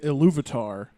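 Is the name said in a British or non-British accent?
non-British. It is said with a non-British accent. "he doesn't say Iluvatar"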